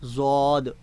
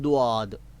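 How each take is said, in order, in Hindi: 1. शब्द z की आवाज़ से शुरू होता है। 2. शब्द साधारण d की आवाज़ से शुरू होता है। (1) "ज़ोए के साथ पढ़ना भी गलत है" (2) "दाल पर पेश के साथ पढ़ रहे हैं"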